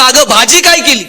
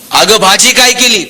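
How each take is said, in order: First: Higher-pitched, mild retold yell; mock shout with little extra volume. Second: Lightly acted call to wife; mild call at usual pitch. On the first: Husband right behind his wife, mild mock yell. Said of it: "आणि जोरात ओरडला". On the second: Husband calls from the door to his wife, calling out. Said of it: "यानं दारातूनच आवाज दिला".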